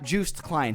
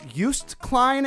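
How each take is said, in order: First: The first name sounds like the English word juice. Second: The first name does not sound like juice. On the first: The speaker calls it wrong. "He's not a goddamn orange, okay? We can't just juice him" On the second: The speaker calls it right. "I'm pretty sure that that's the correct pronunciation"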